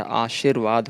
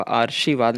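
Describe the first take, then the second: First: आशीर्वाद as "aa-sheer-vaad"; correct form. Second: आशीर्वाद with r moved forward, "aarshivaad"; wrong form. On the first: Teacher giving the correction, आशीर्वाद with r before v. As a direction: put the r after "shee" in आशीर्वाद. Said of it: "आशीर्वाद होता है". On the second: Teacher rejecting a misspelling, आशीर्वाद said as "aarshivaad". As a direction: put the r before the sh in आशीर्वाद. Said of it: "आशीर्वाद नहीं होता". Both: Shown as a demonstration.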